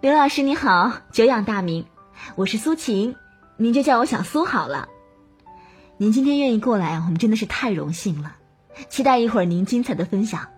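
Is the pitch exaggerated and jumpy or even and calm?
even. The pitch is even, calm and sincere.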